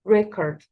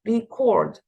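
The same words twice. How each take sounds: First: The stress is on the first syllable. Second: The stress is on the second syllable. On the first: It is the noun, a recording. "so the stress here is on the first syllable" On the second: It is the verb, to record. "هنا الستريس بيكون على السكند syllable"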